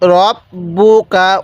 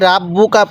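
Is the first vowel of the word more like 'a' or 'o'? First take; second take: o; a. First: The first vowel sounds like a rounded 'o'. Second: The first vowel sounds like an open 'a'. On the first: The speaker calls it right. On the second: The speaker calls it wrong. "অনেকেই রাব্বুকা পড়ি না, এরকমভাবে পড়ব না।"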